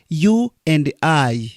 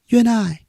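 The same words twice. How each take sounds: First: The words are said separately, without linking. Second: The words are run together quickly, fully linked. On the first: The speaker calls it wrong. "Not you and I" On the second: The speaker calls it right. "you see connected here. ... Quickly"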